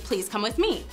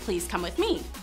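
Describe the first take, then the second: First: It is said firmly and forcefully. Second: It is said gently and politely.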